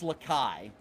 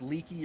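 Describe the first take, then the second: First: The name sounds like 'la-kai'. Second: The name sounds like 'leaky'. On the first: The speaker calls it right. "I think it's Lakai" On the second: The speaker calls it wrong. "I thought it was Leaky"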